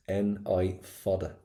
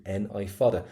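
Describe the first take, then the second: First: Slow, deliberate "N-I fada" so learners catch each letter; slow spelling. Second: Said in the usual way. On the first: Shown as a demonstration. Teacher spelling the word slowly for her class. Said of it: "Do not pop the L in this".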